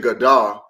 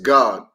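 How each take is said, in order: First: The word ends with an added vowel after d. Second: The word ends cleanly on the d sound. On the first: The speaker calls it wrong. "you don't say Gadah" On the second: The speaker calls it right. "it's just God"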